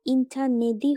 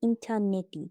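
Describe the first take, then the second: First: ইন্টারনেটই said as "internedi"; wrong D form. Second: ইন্টারনেটই said as "interneti"; correct T form. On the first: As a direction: voice the last t of ইন্টারনেটই into d. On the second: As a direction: keep a hard t in ইন্টারনেটই. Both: Shown as a demonstration. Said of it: "হবে না".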